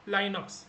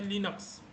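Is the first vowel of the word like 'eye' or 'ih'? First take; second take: eye; ih. First: The first vowel sounds like 'eye'. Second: The first vowel sounds like 'ih'. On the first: The speaker calls it wrong. "बहुत सारे लोग इसको लाइनक्स भी बोलते हैं" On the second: The speaker calls it right. "But proper pronunciation होता है लिनक्स"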